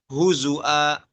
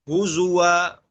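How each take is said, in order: First: The middle consonant is a glottal stop. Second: The middle consonant is a clear w sound. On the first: "ibdal waw hamzah" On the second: "wawunya jelas kan?"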